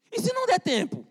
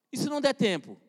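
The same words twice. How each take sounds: First: Much higher, pressing challenge; sharp warning question. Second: Said in the usual way. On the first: Shown as a demonstration. Preacher to a procrastinator, a high urgent warning. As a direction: throw the question high at them.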